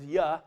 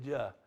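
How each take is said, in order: First: The name begins with a Y sound. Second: The name begins with a J sound. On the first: This is the original Hebrew pronunciation. "what the Hebrews pronounced as Yah" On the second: This is the pronunciation shaped by German influence. "Because of our German influence, we pronounce it as Jah"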